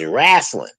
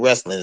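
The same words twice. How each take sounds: First: It is said in a Southern drawl. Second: It is said in a standard accent.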